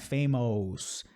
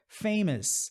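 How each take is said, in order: First: The final vowel is full and clear. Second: The ending is a weak schwa plus s. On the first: The speaker calls it wrong. "não é famous" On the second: The speaker calls it right. "Schwa mais o S"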